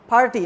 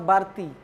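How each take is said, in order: First: The word begins with a voiceless p sound. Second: The word begins with a voiced b sound. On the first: The speaker calls it right. "they have to pronounce party" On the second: The speaker calls it wrong. "they pronounce Barti"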